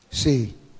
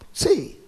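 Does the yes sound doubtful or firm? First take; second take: firm; doubtful. First: The yes sounds firm and affirmative. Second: The yes sounds hesitant and doubtful. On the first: The speaker affirms it. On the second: The speaker is unsure.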